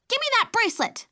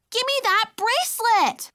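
First: Put-on high, loud toddler shout; a tiny girl in a rage; furious shout. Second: Put-on high, loud little-girl demand; a tiny girl lunging in rage; furious cry. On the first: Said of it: "she shouted in fury". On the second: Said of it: "she cried". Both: A narrator's reading.

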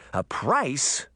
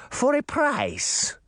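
First: Put-on puzzled girl echoing; girl asking in disbelief; surprised girl. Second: Put-on high, slow sly witch, Russian accent; drawn-out crafty crone with Russian accent. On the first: Girl echoes the witch. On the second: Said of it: "in a thick Russian accent". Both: A narrator's reading.

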